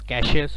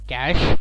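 First: The final e is pronounced. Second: The final e is silent.

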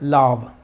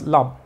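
First: The vowel is long. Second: The vowel is short. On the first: The speaker calls it right. "Por sí sola es sonido larguito" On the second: The speaker calls it wrong. "porque no es love"

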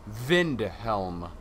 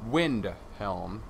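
First: The name starts with a V sound. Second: The name starts with a W sound. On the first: The speaker calls it right. "it is pronounced Vindhelm" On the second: The speaker calls it wrong. "not Windhelm"

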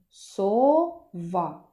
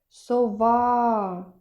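First: The word is said plainly, without calling. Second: The word is called out, second syllable louder. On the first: "І останнє слово" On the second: "Тепер уявно покличемо сову"

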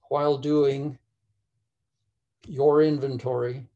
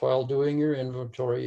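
First: It is said slowly and carefully. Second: It is said at normal speed.

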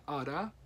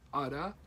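First: The two words are blended into one reduced word. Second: The same.

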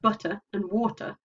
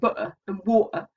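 First: The t sounds are pronounced as clear t's. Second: The t sounds are replaced by glottal stops. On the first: "more than they're saying butter and water" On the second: "whether people are saying butter and water"

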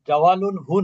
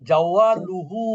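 First: An 'n' sound comes before the final 'hu'. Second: No 'n' sound comes before the final 'hu'. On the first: The speaker calls it wrong. "জাওয়ালুন হু না" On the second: The speaker calls it right.

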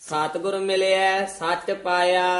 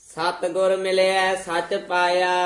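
No difference in how they are said.

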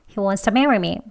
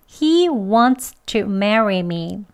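First: Wants to is said more weakly and reduced. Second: Every sound of wants to is fully pronounced. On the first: "더 약하게 발음합니다" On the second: "그대로 발음 다 합니다"

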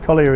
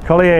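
First: The name is said with an English pronunciation. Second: The name is said with a French pronunciation. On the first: "Collier is English" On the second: "Collier is French"

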